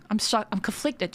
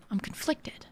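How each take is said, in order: First: Said in the usual way. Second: Whispered, much softer repeat. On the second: Real, not acted. Streamer repeats her indecision in a whisper to herself. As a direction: whisper it again to yourself.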